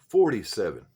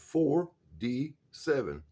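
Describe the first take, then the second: First: The phrase is said fast, parts run together. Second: The phrase is said slowly, each part separate.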